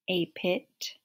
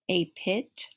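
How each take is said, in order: Both takes have the same delivery.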